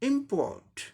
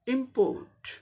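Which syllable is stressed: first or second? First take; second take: first; first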